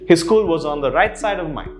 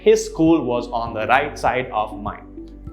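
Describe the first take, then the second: First: The words are run together into linked chunks. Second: Each word is said separately, without linking. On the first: The speaker calls it right. "that's how it will roll" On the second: The speaker calls it wrong. "this sounds much more natural than saying"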